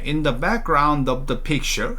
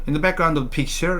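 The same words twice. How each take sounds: First: Each word is articulated clearly and carefully. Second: The words are rushed and slurred together. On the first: The speaker calls it right. "발음을 또박또박 해주셔야 되는데" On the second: The speaker calls it wrong. "성의 없게 말하기 시작을 합니다 ... 이렇게 돼버리죠"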